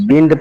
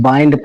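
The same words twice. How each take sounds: First: "बिंड" with a short i; wrong pronunciation. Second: "बाइंड" with an "eye" vowel; correct pronunciation. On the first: Teacher warning it is wrong, "बिंड" with short i. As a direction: say "बिंड" with the vowel of "pin". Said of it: "पढ़ेंगे तो गलत होगा". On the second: Teacher giving the right reading, "बाइंड" with "eye". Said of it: "हम बाइंड पढ़ेंगे". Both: Shown as a demonstration.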